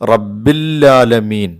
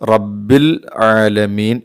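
First: The l is doubled and the throat sound dropped. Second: A clear throat sound comes before alamin. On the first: The speaker calls it wrong. "ലാമിന് ഷദ്ദ് കൊടുത്ത് തൊട്ടടുത്ത ഐനിനെ ഉച്ചരിക്കാതെ പറയുന്നു" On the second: The speaker calls it right. "ഐനിനെ വ്യക്തമാക്കി തന്നെ ഉച്ചരിക്കണം"

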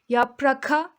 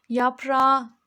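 First: A clear k sound comes before the last vowel. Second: No k sound comes before the last vowel. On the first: The speaker calls it wrong. "Yapraka demiyoruz" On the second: The speaker calls it right. "yaprağa diyoruz"

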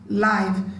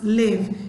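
First: The vowel sounds different from the one in give. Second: The vowel sounds like the one in give. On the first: The word as shown on a television screen. The speaker calls it right. "it will be pronounced live" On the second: The everyday verb meaning to be alive. The speaker calls it wrong. "that one is not to be pronounced live"

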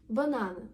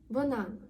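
Both takes have the same delivery.

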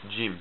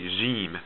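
First: It begins with an English j sound. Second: It begins with a soft French j sound. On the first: "it makes the sound like the English letter j" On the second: "we pronounce this more like j, like French j"

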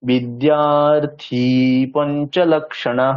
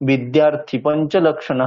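First: The vowel of 'thi' is drawn out long. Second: The vowel of 'thi' is short. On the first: The speaker calls it right. "থিটা যেহেতু দীর্ঘ তাহলে টানতে হবে" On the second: The speaker calls it wrong. "এরকম বললে কিন্তু হবে না"

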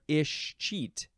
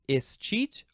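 First: The word begins with an 'ish' sound. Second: The word begins with an 'ess' sound. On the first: "or an ish at the beginning" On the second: "You can pronounce it with an is or an ish at the beginning"

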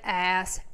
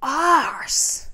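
First: It is said in an American accent. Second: It is said in a British accent.

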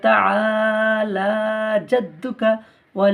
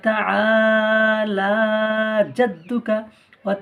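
Both takes have the same delivery.

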